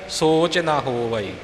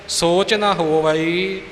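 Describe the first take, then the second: The two takes are said the same way.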